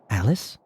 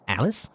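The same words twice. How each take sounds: First: It is said in a plain, normal voice. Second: It is said in a weird white rabbit voice.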